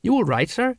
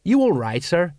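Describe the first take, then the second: First: High, rising, concerned question; anxious subordinate checking in; worried. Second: Mildly concerned repeat, less raised; understated check-in; repeated question. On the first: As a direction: ask with worry, pitch lifting. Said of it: "went on in a worried voice". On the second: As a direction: repeat the question more evenly. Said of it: "Colon repeated". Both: A narrator's reading.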